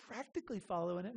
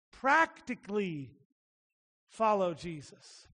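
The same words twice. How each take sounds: First: "Practically" tossed off fast and soft, meaning almost; throwaway practically. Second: "Practically" drawn out slowly, weighty and earnest; stressed practically. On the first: Preacher mocking "Practically" as almost, fast and soft. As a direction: rush "Practically" quietly like a dismissive almost. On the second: Preacher stressing "Practically" to his congregation as literal, weighty. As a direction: lean on "Practically" as real daily doing. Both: Shown as a demonstration. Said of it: "Not practically meaning, like, almost".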